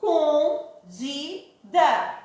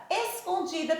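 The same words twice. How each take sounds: First: ES-CON-DI-DA, slow, separate beats; syllable by syllable. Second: Said in the usual way. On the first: Shown as a demonstration. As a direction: split Escondida into four drawn-out syllables. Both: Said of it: "Escondida tem quantas".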